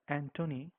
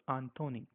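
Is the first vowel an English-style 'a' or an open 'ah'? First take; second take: English a; open ah. First: The first vowel is an English-style 'a'. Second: The first vowel is an open 'ah' sound. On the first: The speaker calls it wrong. "you cannot say this as Anthony, just like we say in English" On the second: The speaker calls it right. "you have to say it as Anthony. So A will be pronounced like ah"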